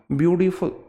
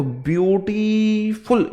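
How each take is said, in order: First: ब्यूटीफुल with a slight break after ब्यूटी; syllable demo. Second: ब्यूटीफुल slow, ब्यूटी and फुल split by a small pause; syllable demo. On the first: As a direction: show the pause inside ब्यूटीफुल. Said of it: "ब्यूटी और फुल में pause है". (ब्यूटीफुल में ब्यूटी के बाद हल्का ठहराव) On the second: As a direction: say ब्यूटीफुल slowly, pausing between ब्यूटी and फुल. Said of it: "ये two syllable है". (ब्यूटीफुल धीरे, ब्यूटी और फुल के बीच हल्का ठहराव) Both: Shown as a demonstration.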